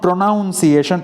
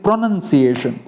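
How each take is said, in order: First: The second syllable sounds like 'noun'. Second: The second syllable sounds like 'nun'. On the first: The speaker calls it wrong. "It is not પ્રોનાઉન્સિએશન" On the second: The speaker calls it right. "It is પ્રોનન્સિએશન"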